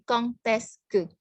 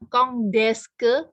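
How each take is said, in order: First: The final consonant links as a T sound. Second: The final consonant links as a D sound. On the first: The speaker calls it right. "tapi kong teske. D-nya dibunyikan seperti T" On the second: The speaker calls it wrong. "bukan kong deske"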